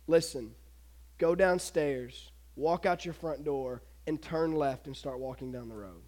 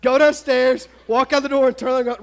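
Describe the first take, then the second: First: Understated, deliberate order from an angel; calm angel command. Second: Loud, urgent run-through of the orders; raised voice, insistent; emphatic obvious answer. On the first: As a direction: give each instruction quietly, with pauses between. Angel's solemn instructions, retold. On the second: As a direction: punch out each step as the obvious thing to do. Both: Acted.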